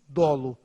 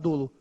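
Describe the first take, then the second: First: The first vowel is an open o. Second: The first vowel is a closed o. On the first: The speaker calls it right. "a gente usa o O aberto" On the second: The speaker calls it wrong. "Por isso que a gente não usa dolo"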